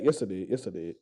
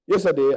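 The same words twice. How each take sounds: First: Much softer and lower each time; trailing off into near silence; fading to a murmur. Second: Said in the usual way. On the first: Real, not acted. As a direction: let it die away under your breath. Repeats correction, fading away.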